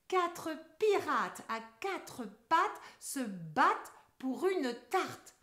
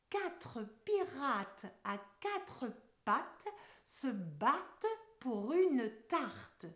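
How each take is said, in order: First: The sentence is spoken at a moderate pace. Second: The sentence is spoken very slowly. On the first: "on accélère un peu" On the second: "d'abord ensemble très lentement"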